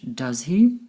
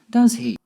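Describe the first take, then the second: First: The voice rises at the end of the tag. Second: The voice falls at the end of the tag. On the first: The speaker is unsure and wants to know the answer. "My voice went up at the end with "does he?"" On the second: The speaker is confirming something they are sure of. "Falling intonation"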